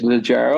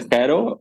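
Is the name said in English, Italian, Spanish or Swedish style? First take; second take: English; Spanish. First: The name is said with an English pronunciation. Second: The name is said with a Spanish pronunciation.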